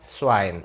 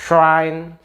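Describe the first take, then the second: First: "Schwein" as swain, dropping low; s onset. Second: "Schwein" after a very long shhh; sh onset. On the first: Teacher drilling for viewers, plain s. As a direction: open "Schwein" on a short thin s. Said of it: "Jadi beda". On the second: Teacher drilling for viewers, exaggerated sh. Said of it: "ada kayak sh". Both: Shown as a demonstration.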